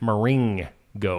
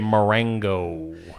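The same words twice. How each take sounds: First: The middle syllable has an 'ih' vowel. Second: The middle syllable has an 'eh' vowel. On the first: This is how the speaker says it. "It should have an I in it, the way I say it" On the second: Some other people say it this way. "some people say Marengo"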